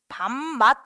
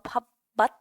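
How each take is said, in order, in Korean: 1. 첫 음절은 m 소리로 끝나요. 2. 첫 음절은 p 소리로 끝나요. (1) "밥맛 이렇게 하잖아" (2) "밥맛 하지 않고"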